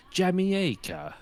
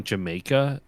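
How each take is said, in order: First: Put-on high, drawn-out affected British accent; mock British accent, absurdly elongated Jamaica; Ian Fleming. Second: Said in the usual way. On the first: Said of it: "he'll go, like". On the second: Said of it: "instead of saying Jamaica in a British accent".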